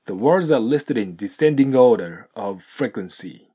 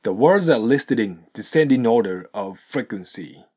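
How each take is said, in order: First: "descending order" with G sounded; slow model sentence, sound the G in "descending"; G pronounced. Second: "descending order" as descendinorder; slow model sentence, no G in "descending"; linked without G. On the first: Teacher shows the second pattern, "descending order" with its G. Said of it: "現在進行形のGを発音すると". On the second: Teacher models the sentence, "descending order" linked without G. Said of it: "現在進行形のGを発音せずに". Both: Shown as a demonstration.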